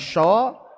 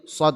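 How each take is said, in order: First: It begins with a spread sh sound. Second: It begins with a sharp, narrow s sound. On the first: The speaker calls it wrong. "bukan sho" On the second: The speaker calls it right. "jadi tadi sod bukan sho"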